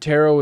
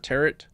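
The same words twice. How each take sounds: First: The word does not rhyme with carrot. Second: The word rhymes with carrot. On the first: The speaker calls it wrong. "a dumb way to pronounce the word" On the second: The speaker calls it right. "even if it sounds like carrot"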